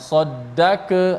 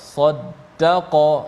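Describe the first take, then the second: First: The q sound is thin like k. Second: The q sound is thick and deep. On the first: The speaker calls it wrong. "jangan saddaka, tak boleh" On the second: The speaker calls it right. "qaf yang mati qalqalah"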